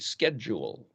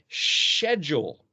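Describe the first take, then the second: First: It is said with an American pronunciation. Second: It is said with a British pronunciation. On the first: The speaker calls it right. "In America, a schedule" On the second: The speaker calls it wrong. "But the Brits call it schedule"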